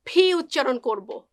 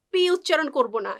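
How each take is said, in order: First: ফি said with a breathy puff, like Bengali ফ; aspirated P. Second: পি said flat with no puff of air; plain Bengali পি; unaspirated P. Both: Shown as a demonstration.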